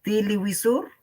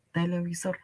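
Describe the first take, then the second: First: "Televisor" said as tiliwisur, vowels e turned to i; "Televisor" with v as w, tili-wi-sur; Quechua-adapted pronunciation. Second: "televisor." said as in Spanish, te-le-bi-sor; "televisor." crisp Spanish e and b sounds; Spanish pronunciation. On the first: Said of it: "Una adaptación". ("Televisor" adaptado al quechua, tiliwisur) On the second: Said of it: "o tal cual". ("televisor." tal cual, como en castellano) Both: Shown as a demonstration.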